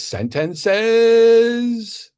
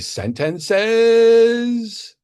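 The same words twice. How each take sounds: First: Every syllable of the word is over-enunciated. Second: Every syllable of the word is over-enunciated.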